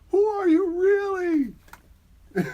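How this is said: It is read in a put-on character voice. The speaker calls it right. "Do the voice"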